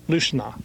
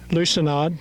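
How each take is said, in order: First: The word ends without a D sound. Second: The word ends with a D sound. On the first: The speaker calls it right. "that should be silent" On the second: The speaker calls it wrong. "I said the D"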